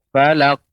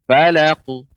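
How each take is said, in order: First: The final q is cut off with a hold. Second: The final q bounces with a slight vowel echo. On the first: The speaker calls it wrong. "Tidak falak" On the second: The speaker calls it right. "dia memantul. Falaku"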